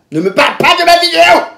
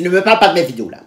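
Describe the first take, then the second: First: High, loud retold outburst; angry yell. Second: Said in the usual way. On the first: Snapping at her date about her videos, angry high yell. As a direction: explode into a high shout.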